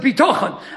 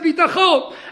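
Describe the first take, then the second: First: The stress is on the middle syllable. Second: The stress is on the last syllable. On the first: It connects to what is above. "I like being milael" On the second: It stays with what is below. "You want to be Milara"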